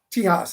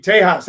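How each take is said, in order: First: "Tejas" said as TEE-hahs, ee in the first syllable; Tejas as tee-has. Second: "Tejas" said as TAY-hahs, ay in the first syllable; Tejas as tay-has. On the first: Host guessing the Spanish word for Texas, unsure TEE-hahs. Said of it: "How do you say that?". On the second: Host greeting Tom down in Texas, TAY-hahs. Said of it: "So, uh, Tejas". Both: Shown as a demonstration.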